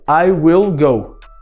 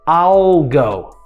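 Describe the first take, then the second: First: The word will is said in full. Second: The word will is reduced to an l sound.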